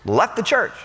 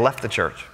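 First: "Left the church" repeated higher with a rising tune; emphatic repeat. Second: Said in the usual way. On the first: Shown as a demonstration. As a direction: echo "church" in disbelief, lifting it up.

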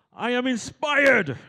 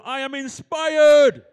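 First: Loud, high, drawn-out rallying cry; energetic call. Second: Very loud, high shout, hugely drawn out; high-energy shout. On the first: Host leads audience in a chant, energetic call. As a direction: belt it out slowly to rouse the room. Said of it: "we need some more energy". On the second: Host pushes audience for more energy, high-energy shout. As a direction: roar it slowly with maximum energy. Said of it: "We need some more energy". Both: Shown as a demonstration.

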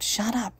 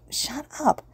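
First: Hushed, unvoiced self-scolding; whispered. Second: Pitched-up frantic repeat; higher, rising. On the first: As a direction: whisper it to yourself. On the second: Acted. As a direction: push it up high in panic. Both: Inner voice scolding himself.

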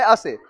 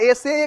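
First: "असे" starting on a short unstressed "uh". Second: "एसे" starting on a clear long "ay" vowel. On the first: Teacher contrasting two similar words, careful "uh" at the start. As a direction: pronounce "असे" as uh-SAY, for assay. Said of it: "एक है असे". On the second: Teacher contrasting two similar words, careful "ay" at the start. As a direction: pronounce "एसे" as AY-say, for essay. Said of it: "ध्यान देना, एक होता है". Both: Shown as a demonstration.

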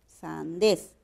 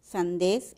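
First: "sandés" drawn out as SAN-DÉS; syllable by syllable. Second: Said in the usual way. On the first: Shown as a demonstration. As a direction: split "sandés" into two separate syllables. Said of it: "de silabeo". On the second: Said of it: "La palabra sandés".

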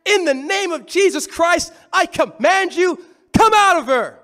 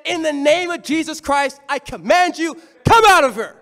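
First: Stern command read from Scripture, louder on come out of her; Paul's rebuke read aloud, swelling loud at the end; read commanding exorcism. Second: Retold command, rising to a louder come out of her; Paul commanding the spirit, building to a loud finish; acted exorcism command. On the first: A narrator's reading. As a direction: order the spirit out, building to a louder final line. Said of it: "said to his spirit". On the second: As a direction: cast the demon out, loudest at the end. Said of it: "And he said".

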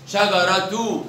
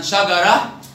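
First: Slow شجرة as "shagaratu"; sounded taa. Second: Slow شجرة as "shagarah"; pausal haa. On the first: Teacher tests taa marbuta, شجرة ending in -tu. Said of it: "بالتاء مرة". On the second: Teacher tests taa marbuta, شجرة ending in -ah. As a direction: end شجرة on h, no t. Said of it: "وبالهاء مرة". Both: Shown as a demonstration.

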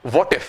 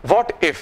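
First: "What if?" asked lower, with a rising tune; questioning what if. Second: "What if?" stated with a falling tune; emphatic what if. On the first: Speaker introduces the doubt, what if asked with a rise. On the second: Speaker repeats it to drive home the point, falling what if. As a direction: land "What if?" firmly downward. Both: Shown as a demonstration.

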